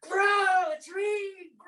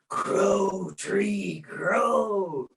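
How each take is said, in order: First: It is said very loudly, almost shouted. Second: It is said a little more loudly. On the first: "you say it so everybody on earth hears it" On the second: "you say it a little bit louder"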